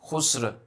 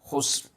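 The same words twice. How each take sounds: First: The final sound is drawn out and extended. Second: The final sound is held back and cut short. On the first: The speaker calls it wrong. "don't make it sound like khusr" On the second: The speaker calls it right. "Make it sound like khusr ... you have to restrain it"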